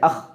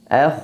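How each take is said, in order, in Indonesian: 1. Nafas dihentikan dengan cepat. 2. Nafas terus mengalir melewati bunyi. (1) "Jadi tidak dibaca ah"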